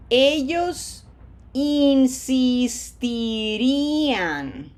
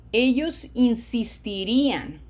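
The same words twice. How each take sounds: First: Very slow "Ellos insistirían", every vowel held long; slow pronunciation model. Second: Said in the usual way. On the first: Shown as a demonstration. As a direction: stretch "insistirían" syllable by syllable, louder. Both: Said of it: "what does it sound like at normal speed".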